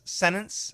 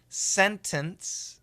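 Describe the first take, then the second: First: The middle T is left out entirely. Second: The middle T is fully released. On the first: "If we say it fast, some people will say sentence, no T" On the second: "Perfect pronunciation"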